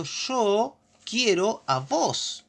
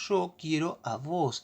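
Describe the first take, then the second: First: "Yo quiero a vos" spelled out very slowly, higher and stressing "vos"; slow, emphatic demo. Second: Said in the usual way. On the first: Shown as a demonstration. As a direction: drag out "Yo quiero a vos" word by word, leaning on "vos". ("Yo quiero a vos" muy lento y enfático, marcando "vos") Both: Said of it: "está diciendo".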